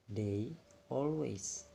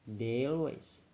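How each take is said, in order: First: The two words are said separately. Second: The two words are linked smoothly together.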